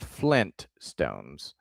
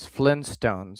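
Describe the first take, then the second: First: The T after 'Flin' is clearly pronounced. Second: The T after 'Flin' is dropped. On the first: "I know what you're saying with Flint stones" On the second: "it was Flintstones because I don't know how else to say it"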